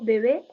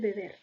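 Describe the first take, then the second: First: The final r sound is dropped. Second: The final r sound is pronounced. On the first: "otras consonantes pueden perderse, sobre todo eh, la D y la R" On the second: "en lugar de"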